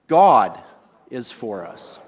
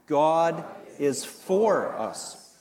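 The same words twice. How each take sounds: First: The stress is on the word God. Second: The stress is on the word for.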